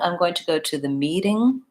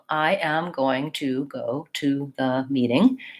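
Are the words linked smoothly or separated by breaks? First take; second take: linked; separated. First: The words are linked smoothly, with stress near the end. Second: Each word is separated, with every sound pronounced. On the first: The speaker calls it right. "I would be linking and connecting" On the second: The speaker calls it wrong. "If I break between every word, read it, and pronounce every sound"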